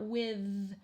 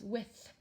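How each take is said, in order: First: The final th is voiced and buzzing. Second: The final th is quiet and voiceless. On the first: The speaker calls it wrong. "it's not with" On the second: The speaker calls it right. "we hear this quiet one"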